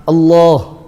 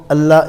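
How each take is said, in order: First: Allah with a heavy dark l, like "Allooh"; full mouth. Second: Allah with a thin, light l; empty mouth. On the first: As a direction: round out the second syllable of Allah. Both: Shown as a demonstration. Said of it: "big difference".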